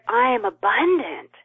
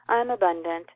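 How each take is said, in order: First: It is said with deep, heartfelt feeling. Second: It is said flatly, like a rote affirmation.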